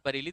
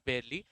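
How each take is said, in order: First: The first vowel sounds like 'a' in 'car'. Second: The first vowel sounds like 'ai' in 'air'. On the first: The speaker calls it wrong. "This is not बरेली" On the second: The speaker calls it right. "This is बेयरली"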